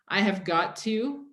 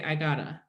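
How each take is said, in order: First: Every word is said in full, unreduced. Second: The words are shortened and run together. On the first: "instead of saying" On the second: "it's a lot easier to say"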